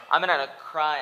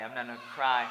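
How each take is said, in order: First: Much louder, punching NOT; loud defiant. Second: Defiant. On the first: Vowing to viewers he won't cry, loud stress on not. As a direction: declare it loud, hitting "not". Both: Real, not acted. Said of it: "to cry all day".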